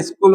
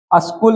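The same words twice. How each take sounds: First: स्कूल said "iskul", short i first; correct form. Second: स्कूल with an a- in front, "askul"; wrong form. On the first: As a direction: start स्कूल on a light "is". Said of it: "स्कूल होता है". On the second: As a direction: say अस्कुल starting on "as". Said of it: "नहीं होता है". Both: Shown as a demonstration.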